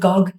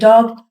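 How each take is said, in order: First: The word begins with a g sound. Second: The word begins with a d sound. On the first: The speaker calls it wrong. "duh is replaced by a go" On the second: The speaker calls it right. "instead of saying dog"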